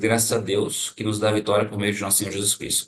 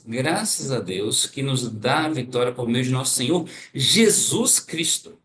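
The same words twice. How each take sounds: First: It is read evenly with no special emphasis. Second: The final words Jesus Cristo carry strong emphasis. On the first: "uma primeira leitura normal" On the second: "eu vou dar uma ênfase na última palavra, que é é, Jesus Cristo"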